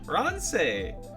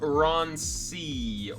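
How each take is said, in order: First: The surname ends with an 'ay' vowel. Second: The surname ends with an 'ee' vowel. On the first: The speaker calls it right. "It's Say. So Ron Say" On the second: The speaker calls it wrong. "Ron C or Ron Say. How do I pronounce that one"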